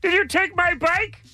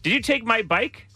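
First: It is said as a Pee-wee impression. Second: It is said in his natural voice.

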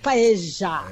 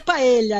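First: It is said in a Buenos Aires accent. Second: It is said in a plain, non-Buenos Aires accent. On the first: The speaker calls it right. "tem que ser pronúncia portenha" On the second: The speaker calls it wrong. "Não é paella"

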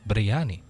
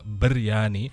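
First: The word is said in a simpler, eased form. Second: The word is said in a fuller, harder form. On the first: This is the form after a consonant shift. "You're going to simplify it to biryani" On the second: This is the form from the original language. "that sounds complicated"

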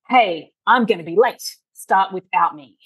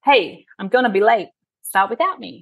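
First: The message sounds hostile, like an attack. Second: The message sounds friendly and neutral.

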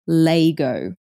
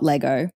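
First: The word is said the South Australian way. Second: The word is said the standard way. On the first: The speaker calls it wrong. "in South Australia, it's pronounced Laygo" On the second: The speaker calls it right. "not Lego"

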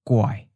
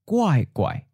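First: The tone starts mid and falls. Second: The tone starts high and falls sharply. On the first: "third tone mid-falling as the original tone" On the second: "the first syllable changing to second tone high-falling"

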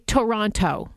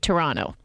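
First: The second t is clearly pronounced. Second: The second t is dropped. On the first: The speaker is a visitor, not a local. "a tourist will say Toronto and really sound out that second T" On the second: The speaker is a local. "anyone from the six will say Toronto"

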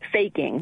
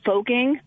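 First: The first vowel is an 'ay' sound. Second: The first vowel is not an 'ay' sound. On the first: The speaker calls it right. "So it's an A sound, even though it's spelled O-E" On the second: The speaker calls it wrong. "How many times do people mispronounce it? All the time"

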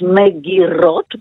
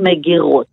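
First: The r is a front trill, like Russian. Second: The r is made in the throat.

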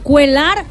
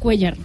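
First: The name is said the way Brazilians say it. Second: The name is said the native Spanish way. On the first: This is how people in another country say it. The speaker calls it wrong. "en Brasil le dicen cuelar" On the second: This is how the name is really pronounced. The speaker calls it right. "ya enseñó a la gente que es cuellar"

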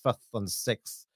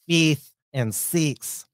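First: It is said with a New Zealand pronunciation. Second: It is said with an Australian pronunciation. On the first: "the New Zealander pronunciation" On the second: "like we do as well"

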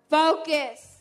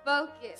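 First: It is said in a dramatic preacher's style. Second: It is said plainly, in his normal voice.

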